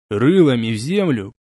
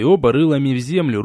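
First: Firmer, harder repeat of the order; raised voice. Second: Said in the usual way. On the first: A narrator's reading. (повысив голос) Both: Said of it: "повысил я голос".

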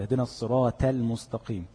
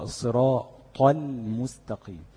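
First: الصراط read with a thin, unemphatic ط like ت; wrong light ta. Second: الصراط with a full, raised emphatic ط, slow and careful; correct heavy ta. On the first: Teacher imitates how many people misread الصراط. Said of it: "كتير من الناس يقرأها كده". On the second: Teacher models the correct recitation for students, slowly. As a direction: stretch الصراط out and give the ط its full heaviness. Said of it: "مطلوب الاستعلاء في الطاء". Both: Shown as a demonstration.

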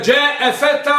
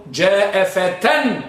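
First: فتى ending in a long open "aa", no n; high, loud جاء فتى, held on the final vowel; without tanween. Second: فتى said "fatan", ending in a ringing n; very slow, drawn-out جاء فتى with a final n; with tanween. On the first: Teacher tests the weak form, فتى without the final n. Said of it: "بدون ألف". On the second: Teacher models the proper form, فتى with tanween "-tan". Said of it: "إنما أن تقول". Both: Shown as a demonstration.

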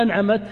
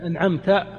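First: "أنعمت" as an'amat, ending on a bare t; silent feminine ta. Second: "أنعمت" as an'amta, ending on an open a; voweled final ta. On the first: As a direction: say "أنعمت" with fatha on the mim and a vowelless final ta. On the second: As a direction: say "أنعمت" with fatha on the ta and no vowel on the mim. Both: Shown as a demonstration. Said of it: "تاء التانيث الساكن".

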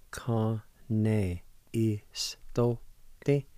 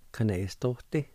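First: "Ka ne is to te" drawn out slowly, syllable after syllable; slow demo. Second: Said in the usual way. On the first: Shown as a demonstration. Radio teacher to learners, very slow demonstration. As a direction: stretch each sound of "Ka ne is to te" for learners. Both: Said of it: "It's pronounced like this".

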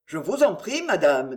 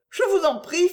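First: Said in the usual way. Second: High, louder urgent plea; a lady begging him, pitched up; noblewoman's plea, higher; Marguerite pleading. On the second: Acted.

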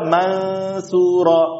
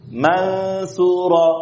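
First: Mansura said thin with a light nun; wrong mansura. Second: Mansura drawn out slowly with a light, thin nun. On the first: Teacher shows the mistaken thin mansura. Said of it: "Jangan dibaca". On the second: Teacher shows how Mansura should not sound. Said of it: "Tipis, jangan". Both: Shown as a demonstration.

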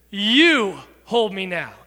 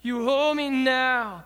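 First: "you hold me now" with "you" punched loud and slow; stress on YOU. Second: "You hold me now" slow, stress sitting on "hold" and "now"; sing-song, weight on "now" like the melody. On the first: Pastor showing teens where the stress belongs, on "you". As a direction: hit "you" hard, then ease off. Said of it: "You should be the emphasis". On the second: Pastor showing how the song stresses "now". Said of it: "it emphasizes me and now". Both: Shown as a demonstration.

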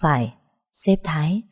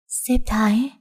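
First: Matter-of-fact affirmation; quiet confirmation. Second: Higher-pitched, rising disbelief; startled question. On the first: Tài confirms the boss's name to her, calmly affirming. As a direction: confirm it simply, no surprise. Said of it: "khẽ gật đầu khẳng định". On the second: Patient hears who sent help, astonished questioning. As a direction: echo the name as a stunned question. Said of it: "Tôi tròn mắt nhìn Tài". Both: A narrator's reading.

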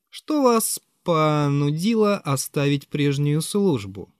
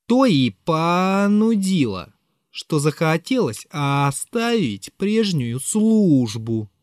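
First: Said in the usual way. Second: Slow, stretched drawl; drawn-out reply. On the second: Acted. Narrator answers Zverkov's question, slowly drawled out. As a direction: stretch every word out, barely in control. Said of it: "Протянул я втрое больше".

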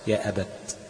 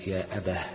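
First: يا أبت stopped on a clear t; final ta pronounced. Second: يا أباه stopped on an audible h; final ha pronounced. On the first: Teacher shows the class Hafs's pause, يا أبت ending in T. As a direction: end يا أبت on a pronounced T sound. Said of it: "بالتاء لحفص". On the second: Teacher shows other readers' pause, يا أباه ending in H. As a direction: end يا أباه on an H in place of T. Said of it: "بالهاء". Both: Shown as a demonstration.

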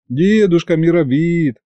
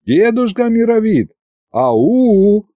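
First: Plaintive plea. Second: High-pitched hailing shout; loud call. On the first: Narrator begs the old sorcerer for help, plaintively. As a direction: stretch it out pitifully. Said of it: "протянул я жалостливо". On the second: Narrator hails the old sorcerer who ignores him, calling loudly. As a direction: call out high to get his attention. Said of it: "а потом громко уже обратился к колдуну". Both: A narrator's reading.

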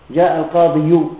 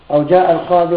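First: القاضي said القاضيُ, with a full u on the end; heavy final damma. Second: Said in the usual way. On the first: Shown as a demonstration. Teacher demonstrates to students the heavy damma on القاضي. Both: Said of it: "ثقيلة ولا لا؟".

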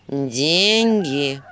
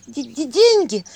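First: Low, gruff owl reminder; a hint of a wise owl. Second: High, loud hiccuping stammer. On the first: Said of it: "напомнил Филин". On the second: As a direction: hiccup through the word. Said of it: "икнула Василиса". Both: A narrator's reading.

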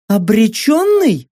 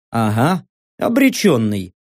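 First: Slow, high questioning echo of ОБРЕЧЁННЫЙ; questioning disbelief. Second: Low, matter-of-fact echo of ОБРЕЧЁННЫЙ; low confirmation. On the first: Saka querying narrator's word, high puzzled question. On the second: Narrator answering Saka's doubt, low confirmation. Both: Acted.

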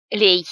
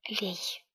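First: Loud, sharp one-word order; loud, abrupt command; urgent command. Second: Soft, hushed urging; very quiet, near-whispered word. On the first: Aunt urgently orders him to pour. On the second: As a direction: whisper the order. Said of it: "шепнув". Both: A narrator's reading.

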